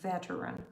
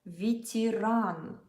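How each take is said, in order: First: The stress is on the first syllable. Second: The stress is on the last syllable. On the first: The speaker calls it wrong. "you will definitely be tempted to say it like veteran" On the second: The speaker calls it right. "in Russian, the last syllable is stressed"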